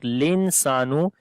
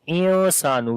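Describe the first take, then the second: First: The word begins with an l sound. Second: The word begins with a vowel sound. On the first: The speaker calls it wrong. "It is not linsanu" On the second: The speaker calls it right. "It is insanu"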